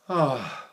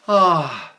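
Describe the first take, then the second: First: The sigh sounds exhausted. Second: The sigh sounds happy.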